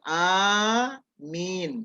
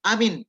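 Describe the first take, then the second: First: Both vowels are drawn out long. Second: Not both vowels are drawn out long. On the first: The speaker calls it right. "Jadi ada dua panjang" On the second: The speaker calls it wrong. "Tidak boleh"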